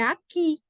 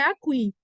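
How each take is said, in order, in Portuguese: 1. O u é mudo antes do i. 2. O u é pronunciado antes do i. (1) "Se o U é mudo, como é o caso de aqui" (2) "a pronúncia correta não é aqui"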